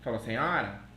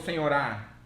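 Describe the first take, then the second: First: The stress is on the middle syllable. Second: The stress is on the last syllable. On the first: The speaker calls it right. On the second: The speaker calls it wrong. "Ela não chegou lá e falou senhorá"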